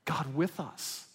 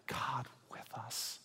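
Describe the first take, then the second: First: Said in the usual way. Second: Hushed whisper, slow; slow reverent whisper. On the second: Shown as a demonstration. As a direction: breathe it out in awe. Repeats phrase, first whispered.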